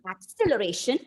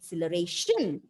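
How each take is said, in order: First: The stress is on the second syllable. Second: The stress is on the fifth syllable. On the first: "Moving on to the second syllable" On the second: "if you stress on the last syllable"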